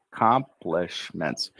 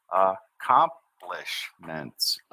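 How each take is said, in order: First: Accomplishments at a slightly slower pace, first syllable almost gone; smoother take. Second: Accomplishments drawn out very slowly, syllable by syllable; syllable demo. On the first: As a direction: run accomplishments smoothly, dropping the first sound. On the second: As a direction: spell out accomplishments in sound, very slowly. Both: Shown as a demonstration. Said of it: "that first C we don't say".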